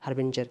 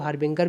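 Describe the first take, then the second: First: The middle consonant is a soft j sound. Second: The middle consonant is a hard g sound. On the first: The speaker calls it right. "But हार्बिंजर बोलिए, जा बोलिए" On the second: The speaker calls it wrong. "इसे कुछ लोग हार्बिंगर भी बोलते हैं"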